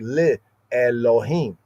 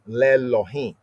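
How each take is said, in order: First: The two words are slowed and kept apart. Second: The two words merge into one quick word. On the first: It puts emphasis on saying it is to God. "slow it down and emphasize" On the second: This is the ordinary flowing way to say it. "combined together in the usual flow of biblical Hebrew would form"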